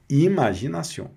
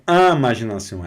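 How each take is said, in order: First: Imaginação begun with a clear oral i, no nasal; imaginação with an open i, not am. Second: Imaginação begun with a nasal am sound; imaginação said as amaʒinasão, wrong nasal start; nasal wrong take. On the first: Teacher giving students the correct oral i, rising. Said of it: "é imaginação". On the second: Teacher showing students the nasal mistake, quick. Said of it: "não é imaginação". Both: Shown as a demonstration.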